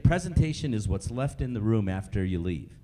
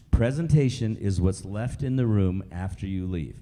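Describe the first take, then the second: First: Said in the usual way. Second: PRESENTATION set down firmly, lower in pitch; emphatic repeat. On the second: Shown as a demonstration. Speaker repeats a key point to trainees, emphatic on PRESENTATION. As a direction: repeat it deliberately, leaning on PRESENTATION. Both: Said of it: "I wanna say that again".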